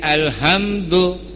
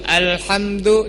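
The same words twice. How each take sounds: First: The h is a plain, light h. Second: The h is a throaty, pharyngeal h.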